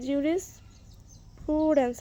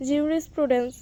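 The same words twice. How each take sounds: First: "জুরিসপ্রুডেন্স" slowly, split after জুরিস; careful pronunciation. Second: Said in the usual way. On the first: Shown as a demonstration. Teacher showing the class how it is said, "জুরিসপ্রুডেন্স" slowly in two parts. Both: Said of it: "উচ্চারণটা এইরকমই হবে".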